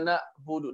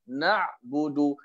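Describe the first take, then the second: First: The voice stops sharply with a glottal catch. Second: A squeezed sound from the middle of the throat. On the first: The speaker calls it wrong. "Dia stop macam suara, itu Hamzah" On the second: The speaker calls it right. "Ain dia kena lebih sikit"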